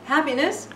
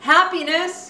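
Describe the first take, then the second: First: It is asked with a rising, questioning tune. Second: It is called out with a falling, exclaiming tune.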